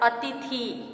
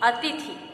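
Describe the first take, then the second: First: The vowel after 'th' is a long ee. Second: The vowel after 'th' is a short i. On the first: The speaker calls it wrong. "बड़ी ई है तो उसका उच्चारण होगा अतिथि" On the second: The speaker calls it right. "शुद्ध है अतिथि। दोनों पर छोटी ई की मात्रा"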